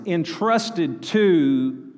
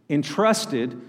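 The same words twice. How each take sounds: First: "entrusted to" stretched out with a long "to"; emphatic drawn-out words. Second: Said in the usual way. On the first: Real, not acted. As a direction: underline "entrusted to", dragging out "to". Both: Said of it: "highlight this".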